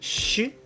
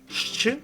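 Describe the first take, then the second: First: It is a single soft sh sound. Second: It is sh followed by a ch sound. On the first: The speaker calls it wrong. "people can pronounce this letter like soft version of sh" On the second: The speaker calls it right. "it's like um, more correct"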